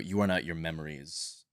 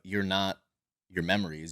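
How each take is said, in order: First: It is said in a deeper voice. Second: It is said in his normal voice.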